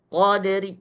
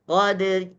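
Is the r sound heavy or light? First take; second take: light; light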